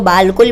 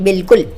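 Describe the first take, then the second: First: The first vowel is a long 'aa' sound. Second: The first vowel is a short 'i' sound. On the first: The speaker calls it wrong. "कुछ लोग इसको बालकुल भी पढ़ते हैं, यानी इस अलिफ को पढ़ते हैं, जो कि गलत है" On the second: The speaker calls it right. "हम इसको पढ़ेंगे बिल्कुल। यहाँ पर ये अलिफ साइलेंट है"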